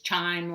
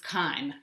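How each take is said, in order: First: The word begins with a ch sound. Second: The word begins with a k sound. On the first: The speaker calls it wrong. "You hear people sometimes mispronounce it as chime, like a doorbell" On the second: The speaker calls it right. "The C H is pronounced like a K"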